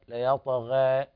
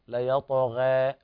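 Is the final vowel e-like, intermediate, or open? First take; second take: intermediate; intermediate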